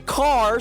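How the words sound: It is said in a non-English, everyday accent. "I say car"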